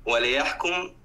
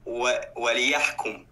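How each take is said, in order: First: The 'l' is said with no vowel after it. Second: The 'l' is said with an 'i' vowel after it.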